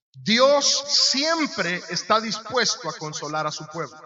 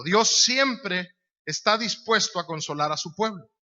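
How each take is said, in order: First: Slow, deliberate, every word weighed; slow emphatic statement. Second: Said in the usual way. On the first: Shown as a demonstration. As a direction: lay it down slowly so it sinks in. (despacio y con peso, palabra por palabra) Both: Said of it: "Yo quiero que usted sepa algo".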